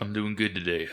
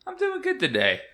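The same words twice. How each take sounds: First: It is said in a deep voice. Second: It is said in a high-pitched voice.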